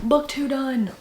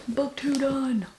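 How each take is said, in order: First: Said in the usual way. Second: Slow, softer, drawn out Book two done; drawn-out repeat. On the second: Real, not acted. Reader savouring a finished book, slow soft repeat.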